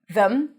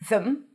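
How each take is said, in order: First: It has a th and a reduced schwa. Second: The same.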